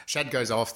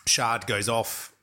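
First: Shad said with a short "a" and no r; corrected name pronunciation. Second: Shard said with an r-coloured "ar" vowel; mistaken name pronunciation. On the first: Host correcting a film character's name, Shad said with short "a". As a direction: say "Shad" to rhyme with "had". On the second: Host unsure of a film character's name, Shard said with "ar". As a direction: say "Shard" with the long "ar" of "hard". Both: Real, not acted. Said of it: "Is it Shard or Shad?".

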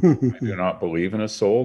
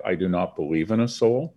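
First: Insisting on his own disbelief, weight on "I"; stress on I. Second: "soul" lifted with a rising tune; firm disbelief, landing on "soul"; stress on soul. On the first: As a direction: hit the word "I" hard. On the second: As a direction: lean on the word "soul" and let it rise. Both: Real, not acted. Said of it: "said twice, deliberately".

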